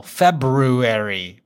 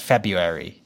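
First: February slowly as "Feb-BRU-ary"; spelling pronunciation. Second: February as "Feb-yu-ary", first r dropped; standard pronunciation. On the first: Explaining the spelling to his co-host, slow "Feb-bru-ary" for February. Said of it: "it's B R U in the middle". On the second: Telling co-host how it is really pronounced, "Feb-yu-ary" for February. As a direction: say February with "byu" in place of "bru". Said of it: "Pronounced February". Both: Shown as a demonstration.

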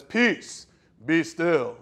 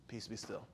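First: Louder, raised proclamation; a hint of a booming Jesus; booming command. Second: Much lower, very soft groggy mumble; drowsy, unbothered murmur; sleepy, offhand. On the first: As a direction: command the storm grandly. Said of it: "with a booming voice says". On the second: Retold or imitated. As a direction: toss it off half asleep. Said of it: "I imagine he does one of these".

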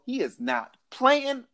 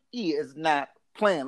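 First: "he is not playing" stretched slow and high; slow emphatic warning. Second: "He is not playing" repeated slow and low. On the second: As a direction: drop it and drag it, dead serious. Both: Shown as a demonstration.

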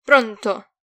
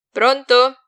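First: Loud, belligerent hello. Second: Loud, higher-pitched hello; loud, raised greeting; loud phone answer. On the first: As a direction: snap it like you're ready for a fight. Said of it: "sbottò bellicoso". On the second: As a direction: pick up with a forceful question. Answers the ringing phone again. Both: A narrator's reading.

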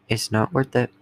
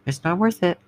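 First: Said in the usual way. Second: Pleading high. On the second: Shown as a demonstration.

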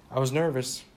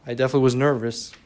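First: Said in the usual way. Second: Louder, faster, pressing on was; emphatic repeat. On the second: Real, not acted. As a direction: insist on it, pushing the words out. Repeats admission with more force.

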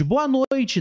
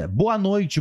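First: Excited greeting. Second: Said in the usual way. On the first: Real, not acted. Greeting a viewer on stream.

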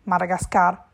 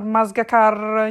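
First: "Madagascar" said cleanly and firmly, every syllable right; correct Madagascar. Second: "Masgacar" said slowly, syllables stumbling as a wrong word; garbled Madagascar. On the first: Secretary correcting Colonnello, crisp proper "Madagascar". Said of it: "precisò segretario". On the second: Colonnello mangling the island name, slow stumbling "Masgacar". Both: A narrator's reading.

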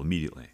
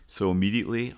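First: Said in the usual way. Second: Immediately pushed up and louder; stress on immediately. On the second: Real, not acted. Telling listeners how fast he apologized, stressed. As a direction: hit the word immediately hard.

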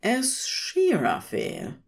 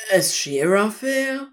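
First: Said in the usual way. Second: Name as a stunned question, rising at the start; shocked. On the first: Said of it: "it read". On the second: A narrator's reading. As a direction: ask "Aziraphale" in shocked disbelief.

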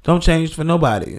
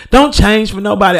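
First: Said in the usual way. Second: Declared louder as a motto. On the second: Shown as a demonstration. Proclaiming a personal motto, louder. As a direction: stamp it down as a personal rule. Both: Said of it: "That's my motto".

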